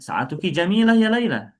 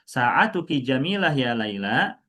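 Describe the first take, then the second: First: It is said with a plain statement tune. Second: It is said with a questioning tune. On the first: It states that the watch is beautiful. The speaker calls it right. "Kalau dijadikan statement boleh juga" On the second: It asks whether the watch is beautiful. The speaker calls it wrong. "kalau kayak gitu jadinya kan kalimat tanya"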